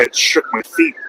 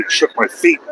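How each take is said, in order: First: Squeaks up high on feet; real delighted high rise; amazed. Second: Squeaks up high on feet again; real delighted high rise; amazed. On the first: Excited about a passing car. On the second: Repeats amazed. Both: Real, not acted. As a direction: marvel at the rumble, rising.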